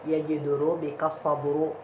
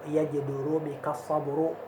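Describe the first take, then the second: No difference in how they are said.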